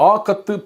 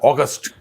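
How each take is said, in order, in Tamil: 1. 's' ஒலி இல்லை, 'thu' என்று முடியும். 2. 's' ஒலி இருக்கிறது, 'st' என்று முடியும். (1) "அதை வந்து உச்சரிக்கக்கூடாது" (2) "அந்த இஸ் இஸ்ன்ற எழுத்து இருக்கு"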